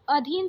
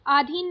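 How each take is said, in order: First: अधीन with a short first a; correct short first vowel. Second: अधीन with a long aa first; wrong long first vowel. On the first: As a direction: say अधीन as "uh-dheen". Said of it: "अधीन सही है". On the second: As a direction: say अधीन as "aa-dheen". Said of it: "अधीन नहीं". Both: Shown as a demonstration.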